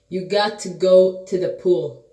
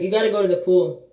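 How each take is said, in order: First: The sentence is spoken more slowly and deliberately. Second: The sentence is spoken at a normal pace. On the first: It is repeated so the listener hears it. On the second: It is said for the first time.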